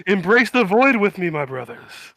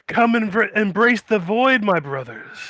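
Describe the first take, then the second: First: Louder ecstatic cult call; cultist voice. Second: Slow, higher preaching cultist. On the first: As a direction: invite them into the void. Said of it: "He's like". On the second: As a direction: beckon them to the void. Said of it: "be like". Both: Acted.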